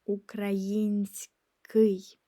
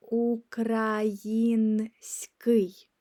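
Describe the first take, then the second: First: Український slow, aloud; slow voiced repeat of Український. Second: Український whispered, very slowly; slow unvoiced model of Український. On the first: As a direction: say Український slowly in full voice. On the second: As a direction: breathe out Український syllable by syllable. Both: Shown as a demonstration. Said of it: "which means Ukrainian".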